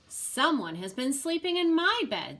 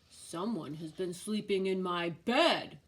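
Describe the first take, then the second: First: It is said in a middle-sized voice. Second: It is said in a big, deep voice.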